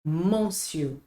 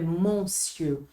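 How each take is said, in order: No difference in how they are said.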